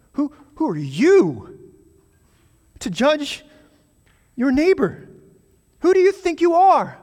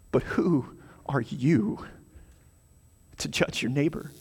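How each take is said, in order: First: Higher, louder mocking challenge; sarcastic. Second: Said in the usual way. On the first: James rebuking the slanderer, biting sarcasm. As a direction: throw the question back with scorn. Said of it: "you can just hear the sarcasm in James's voice". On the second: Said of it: "you can just hear the sarcasm".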